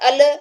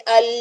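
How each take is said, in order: First: The L is released abruptly with a bounce. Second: The L is drawn out for too long. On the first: "फौरन से छोड़ेंगे तो इसमें कलकला हो जाएगा" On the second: "अगर हम ज्यादा आवाज को चलाते अल, ये नहीं"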